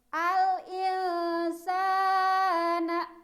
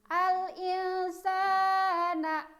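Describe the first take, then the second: Both takes have the same delivery.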